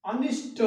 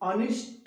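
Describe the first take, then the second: The two takes are said the same way.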